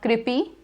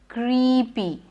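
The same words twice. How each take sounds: First: The first syllable has a short vowel. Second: The first syllable has a long E. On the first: The speaker calls it wrong. "Not creepy" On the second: The speaker calls it right. "but it's creepy"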